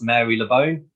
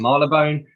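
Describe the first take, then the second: First: The name is sounded out as it is spelled. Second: The name is said in a shorter, contracted form. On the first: This is how the spelling suggests it is said. The speaker calls it wrong. "looks like it should be pronounced" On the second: This is how it is actually said. The speaker calls it right. "but it's"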